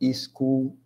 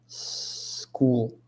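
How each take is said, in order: First: An extra i vowel is added before the s. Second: The word starts directly with a hissing s. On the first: The speaker calls it wrong. "o brasileiro tem o costume de falar" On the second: The speaker calls it right. "O som começa com S, igual um gás vazando"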